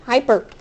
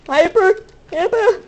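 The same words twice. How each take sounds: First: Said in the usual way. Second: Excited hyper. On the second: Shown as a demonstration. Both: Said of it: "I am hyper".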